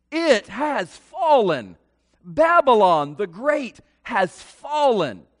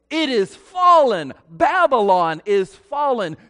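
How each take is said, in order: First: Loud, slow proclamation of the angel; mighty cry. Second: Mighty cry. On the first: Angel cries out loudly over fallen Babylon, slow proclamation. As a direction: proclaim it slowly like a herald angel. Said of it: "He cried in a mighty voice". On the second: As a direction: call it out like a herald from heaven. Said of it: "this angel cries out in a mighty voice". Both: A narrator's reading.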